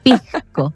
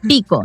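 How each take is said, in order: First: The s sound before the c is pronounced. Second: The s sound before the c is dropped. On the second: "los chilenos no pronuncian la S"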